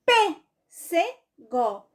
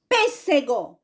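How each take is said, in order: First: "Pêssego" very slowly as PÊ, SE, GO, with gaps; syllable by syllable. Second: "Pêssego" as one word, PÊS strongest; stress on first syllable. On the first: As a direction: break "Pêssego" into three syllables, PÊ strongest. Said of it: "P é a antepenúltima". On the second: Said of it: "Qual é a sílaba mais forte?". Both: Shown as a demonstration.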